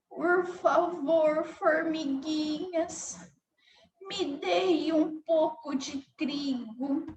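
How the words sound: The voice sounds weak and feeble. The speaker feels weak. "se a formiguinha estivesse com fraqueza"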